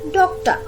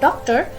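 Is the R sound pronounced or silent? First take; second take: silent; pronounced. First: The R sound is silent. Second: The R sound is pronounced. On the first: The speaker calls it right. "it's doctor" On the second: The speaker calls it wrong. "not doctor"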